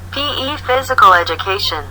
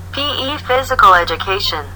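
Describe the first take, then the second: No difference in how they are said.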